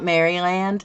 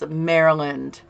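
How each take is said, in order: First: Pronounced the way English people say it. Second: Pronounced the way Americans say it. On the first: The speaker calls it wrong. "a lot of English people, my mother included... it was always Maryland. It's not Maryland" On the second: The speaker calls it right. "it's Maryland"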